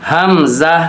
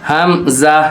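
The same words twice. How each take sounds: No difference in how they are said.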